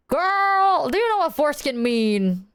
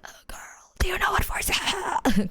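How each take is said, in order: First: Said in the usual way. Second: Airy whisper with almost no voice; voice gone. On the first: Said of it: "Uh, I didn't sound like that". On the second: Shown as a demonstration. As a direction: croak it out with a lost voice. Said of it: "'Cause my voice was so gone".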